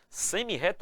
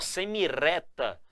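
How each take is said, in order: First: The middle r is a strong guttural sound. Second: The middle r is a soft tapped sound. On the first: The speaker calls it right. "Eu quero a pronúncia do R forte. Do R forte que está em reta" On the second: The speaker calls it wrong. "ele assume o som do R de areia, de arame, de arara. Eu vou ter que pronunciar, ó, semireta"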